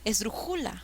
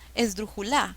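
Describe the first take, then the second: First: The stress is on the third syllable. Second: The stress is on the fourth syllable. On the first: "Mm, mm"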